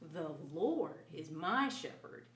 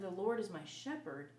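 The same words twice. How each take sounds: First: The word Lord is stressed. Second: The word Lord is not stressed.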